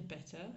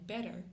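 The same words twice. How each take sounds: First: It is said in a British accent. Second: It is said in an American accent. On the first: "je vais dire better à la british" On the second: "je vais dire better à l'américaine"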